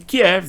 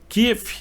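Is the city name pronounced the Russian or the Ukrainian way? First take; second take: Russian; Ukrainian. First: The name is pronounced the Russian way. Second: The name is pronounced the Ukrainian way. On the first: It reflects the Russian point of view. "Kiev é uma pronúncia russa" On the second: It reflects the Ukrainian point of view. "Kiev é uma pronúncia ucraniana"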